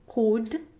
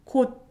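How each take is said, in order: First: The final D is fully released. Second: The final D is stopped without release. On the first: The speaker calls it wrong. "It's not 곧" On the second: The speaker calls it right. "you need to drop the D sound at the end"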